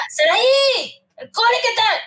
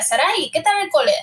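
First: Mother's name-call pitched much higher and sharper; mock stern mum, her name a warning call; angry mother. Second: A lightly voiced mother asking casually; relaxed everyday mum greeting; mother, not angry. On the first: Mother who is angry greeting her daughter from school, mock sharp call. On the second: Mother greeting her daughter home from school, easy and casual. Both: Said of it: "sabía si mi madre estaba enfadada o no".

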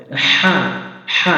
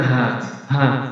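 First: "হা" pressed out from mid-throat; strong, constricted Arabic "হা"; correct big ha. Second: "হা" as a light h, without throat pressure; loose, unpressed "হা", the mistake to avoid; wrong small ha. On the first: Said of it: "এভাবে যখন উচ্চারণ করবো". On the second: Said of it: "এভাবে বলা যাবে না". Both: Shown as a demonstration.

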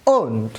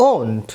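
First: ওন্ট repeated, a little fuller, vowel ও; pronunciation demo. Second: ওন্ট said low and soft with a round ও; pronunciation demo. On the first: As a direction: say ওন্ট again plainly with ও. (ওন্ট আবার স্পষ্ট করে) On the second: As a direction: sound out ওন্ট with the vowel ও. (ওন্ট শব্দে ও উচ্চারণ) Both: Shown as a demonstration. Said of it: "এই অক্ষরটির এরপরের উচ্চারণ হচ্ছে ও".

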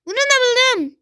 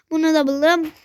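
First: High, thrilled announcement; excited. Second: Said in the usual way. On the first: Real, not acted. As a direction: crow it out, delighted. Repeating found item, building.

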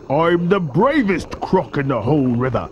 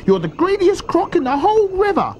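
First: Big croc's proud retort; self-satisfied crocodile bragging; boastful crocodile. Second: High-pitched little-croc accusation; shrieky-high croc reproach; scolding small crocodile. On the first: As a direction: boast back as the enormous croc. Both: A narrator's reading.

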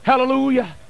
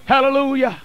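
Both takes have the same delivery.

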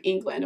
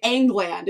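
First: Said in the usual way. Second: First vowel of England said as in "angle"; "England" with altered vowel. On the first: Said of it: "instead of England". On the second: Shown as a demonstration. Host showing the book's spelling, England pronounced Angland. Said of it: "England instead of England".

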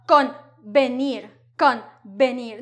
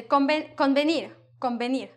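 First: Convenir split slowly, full n then hard b; laboured articulation. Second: Convenir run together, n melting into m before b; fast, blended. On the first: Teacher showing what is difficult to say, laboured convenir. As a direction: break convenir into con and benir. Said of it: "it is difficult to say". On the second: Teacher showing how we say it fast, blended convenir. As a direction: say convenir in one go, like combenir. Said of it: "No, we say it fast". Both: Shown as a demonstration.

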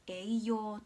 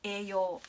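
First: Slow "栄養" with a distinct i after e; clear "ei". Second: "栄養" as ee-yoo, long e with no i; everyday pronunciation. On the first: Teacher giving example words, slow "栄養" with the "ei" sounded. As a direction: read "栄養" slowly as e-i-you. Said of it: "えいっていう音が入る". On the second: Teacher demonstrating natural speech, "栄養" as ee-yoo. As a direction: say "栄養" casually, stretching e in place of ei. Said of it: "いつも話している通りに". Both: Shown as a demonstration.

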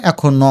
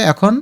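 First: এখন ন as "ækhono", final o voiced; added final vowel. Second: এখন closed on a final n; silent final vowel. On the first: Teacher shows the reading without hasanta, এখন ন ending in o. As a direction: open the last n of এখন ন into no. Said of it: "আর হসন্ত না দিলে". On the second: Teacher explains hasanta to students, এখন ending on consonant. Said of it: "নর নিচে হসন্ত দিলে". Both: Shown as a demonstration.

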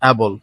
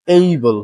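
First: Able with a short open a, "A-bol"; wrong pronunciation. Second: Able with a long AY, AY-bul; correct pronunciation. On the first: Teacher warns against this form, wrong pronunciation. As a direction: say able without the AY glide. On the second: Teacher models the word for learners, correct pronunciation. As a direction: open Able on the diphthong "ay". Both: Shown as a demonstration. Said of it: "not able".

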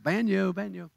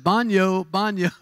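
First: Put-on Southern accent. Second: Said in the usual way. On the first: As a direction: say Baño like a Texan tourist, Southern accent. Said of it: "I said it with my southern accent". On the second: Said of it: "I walked up and I said".

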